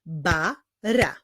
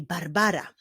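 First: "Barbara" slowly as Bar, ba, ra; three spaced beats on "Barbara"; syllable by syllable. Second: Said in the usual way. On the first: Shown as a demonstration. Teacher clapping the full name, "Barbara" slowly split into syllables. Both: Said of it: "zacznijmy wyklaskiwać sylaby w imieniu".

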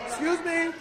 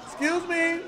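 The two takes are said the same way.

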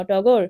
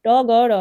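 First: টগর run together as one word; word blended aloud. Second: ট, গ, র sounded separately; letters broken apart. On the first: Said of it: "শব্দগুলো সুন্দরভাবে জোরে জোরে". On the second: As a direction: spell out ট, গ, র one by one. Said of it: "বর্ণগুলো ভেঙে ভেঙে পড়বে". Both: Shown as a demonstration.

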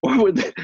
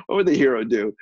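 First: High laugh breaking into the words; can't get it out for laughing; giggling through the restart. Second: Said in the usual way. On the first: Real, not acted. Laughing while restarting quote.

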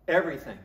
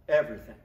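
No difference in how they are said.

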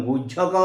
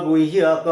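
First: গুজ্জক said with a j sound, the wrong way; wrong pronunciation. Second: গুহ্যক said as guhyak with a clear h; correct pronunciation. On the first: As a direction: say গুজ্জক with jj as the mistake. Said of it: "গুজ্জক উচ্চারণটা হবে গুহ্যক". (ভুল উচ্চারণ: গুজ্জক, জ্জ ধ্বনি দিয়ে) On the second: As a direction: sound the h in গুহ্যক, not a j. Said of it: "উচ্চারণটা হবে গুহ্যক". (সঠিক উচ্চারণ: গুহ্যক, হ স্পষ্ট করে) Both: Shown as a demonstration.

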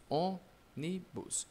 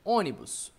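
First: "Ônibus" split slowly into three parts; "Ônibus" in separate, softer syllables. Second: Said in the usual way. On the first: Shown as a demonstration. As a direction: say "Ônibus" as ô, ni, bus. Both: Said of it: "dá pra separar?".

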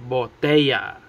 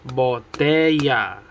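First: Said in the usual way. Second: Botella broken into BO, TE, LLA; split into syllables. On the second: Shown as a demonstration. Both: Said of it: "Three syllables".

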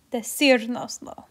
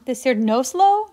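First: "Decirnoslo" stressed on "cir", "noslo" left light. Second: "Decir nos lo" with "nos lo" punched louder, rising; misplaced stress. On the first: Teacher showing where the accent goes, stress on "cir" in "Decirnoslo". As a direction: keep the weight on "cir" in "Decirnoslo". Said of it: "we need to put an accent there". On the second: Teacher showing the class a wrong emphasis, loud stress on "nos lo". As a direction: push the emphasis off "cir" onto "nos lo", questioning. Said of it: "but that's wrong". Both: Shown as a demonstration.

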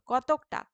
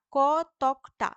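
First: Said in the usual way. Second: কতকটা stretched very slowly and louder; slow, emphatic teacher's split of কতকটা; syllable by syllable. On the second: Shown as a demonstration. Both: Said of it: "এই তকটা হচ্ছে রুদ্ধ দল".

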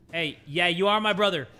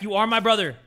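First: Said in the usual way. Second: My punched louder; stress on my. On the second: Shown as a demonstration. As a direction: hit the word my. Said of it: "I take that back".

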